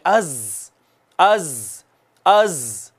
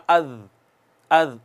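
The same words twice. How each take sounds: First: अज with a hard, whistling z; forceful whistled z. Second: अज with a lazy, unwhistled z; wrong soft z example. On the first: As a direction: push air hard through the z of अज. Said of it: "जोर लगाना है और सीटी लगानी है". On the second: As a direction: say अज softly, no hiss. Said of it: "इसको यूं नहीं पढ़ना". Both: Shown as a demonstration.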